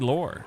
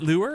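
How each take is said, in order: First: The vowel sounds like the one in 'lore'. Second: The vowel sounds like the one in 'lure'. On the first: The speaker calls it wrong. "I just say lore. But I feel like that's not right" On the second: The speaker calls it right. "Is it lure? Am I supposed to say lure?"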